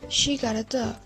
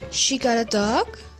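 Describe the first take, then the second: First: The pitch falls at the end. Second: The pitch rises high at the end. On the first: The thought is complete. "the intonation went down to indicate the completion of the thought" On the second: The speaker is surprised. "the intonation went way up to indicate surprise"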